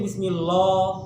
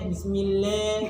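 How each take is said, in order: First: The last vowel is a fully open a. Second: The last vowel is pushed too far toward e. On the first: "tapi tidak juga menjadi" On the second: "jangan terlalu berlebih menjadi eh"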